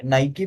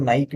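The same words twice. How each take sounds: First: नाइकी in two syllables, "nai-kee"; Nike as नाइकी. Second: नाइक as one syllable, "naik"; Nike as नाइक. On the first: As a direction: say नाइकी ending in a clear "ee". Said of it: "नाइकी बोलते हैं". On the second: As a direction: say नाइक ending on the k. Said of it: "कुछ लोग नाइक भी बोलते हैं". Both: Shown as a demonstration.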